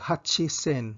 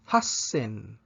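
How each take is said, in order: First: The word has a full 'chi' syllable before 'sen'. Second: The word has a doubled s before 'en'. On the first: The speaker calls it wrong. "dili ta moingon og hachisen" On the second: The speaker calls it right. "moingon ta og hassen"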